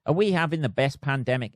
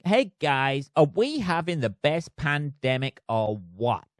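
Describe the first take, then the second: First: Said in the usual way. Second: Put-on a deliberately awful American accent, lightly done; hammed-up American accent, barely shifted; bad American accent. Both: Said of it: "he says in the worst American accent ever".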